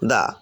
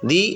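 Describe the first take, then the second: First: The word ends with an 'uh' vowel. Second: The word ends with an 'ee' vowel. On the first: The next word begins with a consonant. "Consonant দিয়ে word গঠিত হয় তার পূর্বে T H E এর উচ্চারণটা হবে দা" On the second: The next word begins with a vowel. "Vowel দিয়ে যদি ওয়ার্ড গঠিত হয় তাহলে তার পূর্বে টিএইচ ই এর উচ্চারণটা কি হবে দি হবে"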